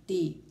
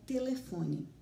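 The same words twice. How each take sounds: First: "Te-le-fo-ne" said syllable by syllable, louder, one beat each; split into syllables. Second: Said in the usual way. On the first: Shown as a demonstration. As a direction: separate each syllable of "Te-le-fo-ne" clearly, stressing the tonic one. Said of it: "Então, vou começar". ("Te-le-fo-ne" pronunciado sílaba por sílaba, bem marcado) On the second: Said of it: "Vamos ver como a gente pronuncia telefone?".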